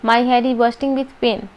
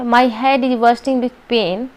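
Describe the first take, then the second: First: It is said in a flat, neutral way. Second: It is said in a flat, neutral way.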